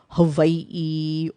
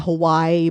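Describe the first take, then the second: First: A glottal stop breaks the final vowels. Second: The vowels run together without a glottal stop. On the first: The speaker calls it right. "but it really is Hawaii" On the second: The speaker calls it wrong. "people say Hawaii"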